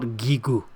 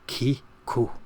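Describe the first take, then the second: First: The word starts with a voiced g sound. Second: The word starts with a voiceless k sound. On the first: The speaker calls it wrong. "It's not Gigu" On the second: The speaker calls it right. "it's Ka. Ki-ku"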